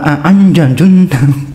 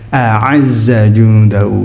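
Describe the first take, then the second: First: The first word ends with an n-j sound. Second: The first word ends with a z sound. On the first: The speaker calls it wrong. "saya pernah dengar itu" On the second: The speaker calls it right. "Ya, a'azza jundahu"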